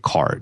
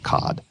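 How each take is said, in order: First: It is said in a plain, unaccented way. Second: It is said with a put-on French accent. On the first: The speaker calls it wrong. "You don't say card" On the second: The speaker calls it right. "you always say it with that French accent"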